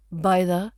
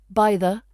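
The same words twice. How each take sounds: The two takes are said the same way.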